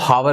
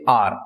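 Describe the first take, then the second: First: The word begins with an audible h sound. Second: The word begins with a vowel, no h sound. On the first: The speaker calls it wrong. "इसको हावर नहीं पढ़ते" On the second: The speaker calls it right. "एच क्या है, यहां पर silent है"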